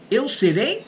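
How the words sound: It is said with question intonation. It asks a question.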